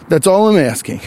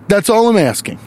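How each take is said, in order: Both takes have the same delivery.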